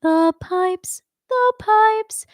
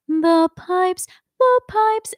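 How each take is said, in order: First: A clear stop between "The pipes" and "the pipes", the second one higher; stopping after the pipes. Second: A breath snatched between "The pipes" and "The pipes", the second one higher; forced breath break. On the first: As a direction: break the phrase after the first "pipes". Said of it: "If I stop". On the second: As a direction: sound out of breath between the two. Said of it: "it ends up feeling forced". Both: Shown as a demonstration.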